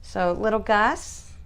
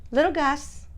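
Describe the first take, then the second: First: Said in the usual way. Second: High sing-song pet voice, calling him; high cooing pet name. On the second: Real, not acted. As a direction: coo his name up high like to a puppy. Coaxing her dog by name.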